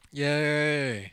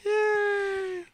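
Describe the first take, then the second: First: It is said with ordinary enthusiasm. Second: It is said with much more enthusiasm.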